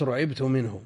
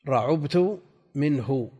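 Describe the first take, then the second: First: رعبت as passive "ru'ibtu", u after the r; ضم الراء. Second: رعبت as "ra'ubtu", u after the ayn; ضم العين. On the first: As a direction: say رعبت with damma on the ra, kasra on the ayn: ru-IB-tu. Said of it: "ضممت الراء". (نطق «رعبت» بضم الراء وكسر العين) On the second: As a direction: say رعبت slowly with damma on the ayn: ra-UB-tu. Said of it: "فإن ضممت العين قلت". (نطق «رعبت» بفتح الراء وضم العين) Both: Shown as a demonstration.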